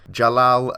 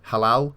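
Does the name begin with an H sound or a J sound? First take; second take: J sound; H sound. First: The name begins with a J sound. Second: The name begins with an H sound. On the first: "I've just butchered that completely" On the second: "if he was Spanish, that J would be pronounced as a H"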